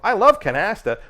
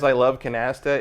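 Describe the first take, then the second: First: It sounds like a performed line for others. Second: It sounds like an aside said to oneself.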